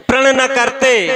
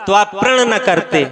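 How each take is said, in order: First: Pleading echo, a touch higher. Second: Daughter pleading. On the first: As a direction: echo the words प्रण न करते, lifted a little. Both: Retold or imitated. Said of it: "उसने बताया कि".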